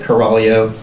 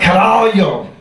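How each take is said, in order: First: It is said flatly, without much energy. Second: It is said with loud, excited energy. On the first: The speaker calls it wrong. "It's not something that you just like" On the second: The speaker calls it right. "You have to be like"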